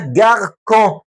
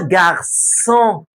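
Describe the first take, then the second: First: The middle consonant is a hard k sound. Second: The middle consonant is a soft s sound. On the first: The speaker calls it wrong. "نطق الكلمه كده من غير السي دي اسمها جاركون" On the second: The speaker calls it right. "هي اسمها جارسون"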